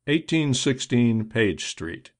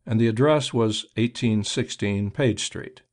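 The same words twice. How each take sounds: First: Slow and deliberate. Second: Said in the usual way. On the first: A narrator's reading. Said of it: "spoken loud enough for the watchman to hear".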